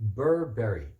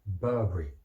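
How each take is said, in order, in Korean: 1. 미국식 억양이에요. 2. 영국식 억양이에요. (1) "미국 사람들은 다 이렇게 익숙하기 때문에 그럼 버버리를 어떻게 할까요?" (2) "영국식 영어는 Burberry 이렇게 합니다"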